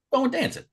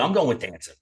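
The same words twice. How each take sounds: First: "I'm going with dancing" said much higher, stress on "with"; insist, hitting "with"; emphatic repeat. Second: Said in the usual way. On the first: Shown as a demonstration. Friend repeats his choice insistently, stress on "with".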